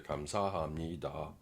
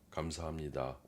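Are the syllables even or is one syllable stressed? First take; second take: stressed; even. First: One syllable is stronger and longer than others. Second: All syllables have about equal weight and length. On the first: The speaker calls it wrong. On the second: The speaker calls it right.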